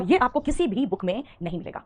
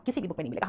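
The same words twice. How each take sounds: First: Firmly spaced-out किसी भी book में; emphatic claim. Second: Low, soft aside; murmured, low-pitched afterthought; quiet repeat. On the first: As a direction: stress on किसी भी, each word set apart. Emphatic claim, then repeated as aside. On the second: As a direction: drop pitch and volume right down. Same claim repeated as aside. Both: Real, not acted.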